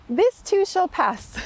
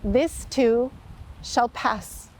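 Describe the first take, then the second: First: "This too shall pass" said higher and slowly, each word weighed; slow emphatic. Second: Said in the usual way. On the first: Shown as a demonstration. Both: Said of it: "The carving on that simple wooden ring said".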